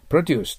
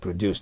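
First: The stress is on the first syllable. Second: The stress is on the second syllable. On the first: It is a noun meaning farm products. "名詞だったら頭にきます" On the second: It is a verb meaning to make. "動詞だったらproduce となります"

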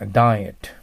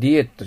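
First: The word begins with a 'die' sound. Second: The word begins with a 'dee' sound. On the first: The speaker calls it right. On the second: The speaker calls it wrong.

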